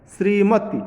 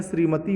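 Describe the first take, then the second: First: श्रीमती said loud with a short final "ti"; short final vowel. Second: श्रीमती with the final "tee" held longer; long final vowel. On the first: Teacher reading the misspelt word, short final vowel. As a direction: cut the end of श्रीमती short. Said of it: "श्रीमत तो होता नहीं है". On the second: Teacher giving the correct word, long final vowel. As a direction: lengthen the last vowel of श्रीमती. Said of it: "बड़ी की मात्रा लग जाएगा". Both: Shown as a demonstration.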